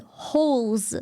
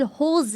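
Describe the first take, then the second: First: Hose as one syllable, silent e; English pronunciation. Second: Hose in two syllables, ho-zuh; German pronunciation. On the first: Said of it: "if you pronounce the word hose". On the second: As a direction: sound the final e of Hose. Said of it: "You have to pronounce it". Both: Shown as a demonstration.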